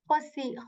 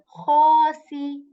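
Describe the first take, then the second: First: The first vowel is held only briefly. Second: The first vowel is held for two counts. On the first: The speaker calls it wrong. "I'm not saying khasi" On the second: The speaker calls it right. "making this sound of kha a bit long for two counts"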